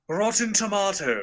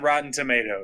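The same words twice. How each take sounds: First: It is said in a British accent. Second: It is said in an American accent.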